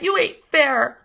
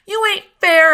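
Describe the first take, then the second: First: Said in the usual way. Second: Loud, high cry of unfairness; loud protest. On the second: A narrator's reading. Scout protests loudly to Uncle Jack. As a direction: fling the protest at him.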